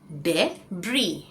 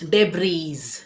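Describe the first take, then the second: First: The word ends on the vowel, no z. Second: The word ends with an audible z sound. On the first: The speaker calls it right. "एस silent है" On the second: The speaker calls it wrong. "ये डेब्रीज नहीं होगा"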